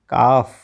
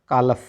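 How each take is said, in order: First: The L sound is left out. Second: The L sound is pronounced. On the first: The speaker calls it right. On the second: The speaker calls it wrong.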